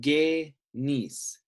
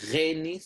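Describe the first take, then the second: First: The syllable starts with a hard g sound. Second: The syllable starts with a throaty gh sound. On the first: The speaker calls it right. "the Ghamma becomes a G sound" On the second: The speaker calls it wrong. "not a Gha"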